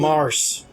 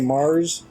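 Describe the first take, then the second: First: The word ends with an s sound. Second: The word ends with a z sound. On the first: This is the Russian pronunciation. "it's just" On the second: This is the usual English pronunciation. "in English how we pronounce it with a sort of Z sound"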